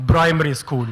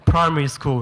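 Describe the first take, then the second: First: "Primary" said as bprimary. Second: "primary" with an aspirated P; primary with a clear P. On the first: The uncle answering, saying Primary as bprimary with a B. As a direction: turn the P in "Primary" into a B. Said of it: "He goes". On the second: Coaching the uncle, carefully saying primary with a clear P. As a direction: spell out the P in "primary". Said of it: "could you please say". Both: Retold or imitated.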